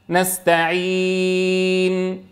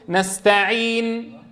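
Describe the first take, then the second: First: The long vowel is held for six counts. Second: The long vowel is held for two counts. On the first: "2 و4 و6 حركات" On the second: "2 و4 و6 حركات"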